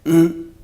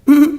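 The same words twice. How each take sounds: First: The hum is at a lower pitch. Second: The hum is at a higher pitch. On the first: Let's go eat. "이게 밥 먹으러 가자는 말이에요" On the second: Don't go elsewhere. "이걸 약간 고음으로 다른 데로 가지 말라는"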